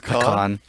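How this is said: The word is said in a Texan way. The speaker calls it right. "I think I'm heavily Texas influenced"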